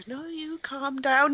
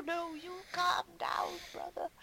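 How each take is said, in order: First: Higher, slow strained mock rage; mock angry. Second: Mock forced calm. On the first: Imitating Brian Blessed scolding his brother, mock angry. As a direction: act out the brother barely holding it together. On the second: Imitating Brian Blessed faking calm at his brother. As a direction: swallow the rage back down. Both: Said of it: "he keeps telling, um, Leonardo".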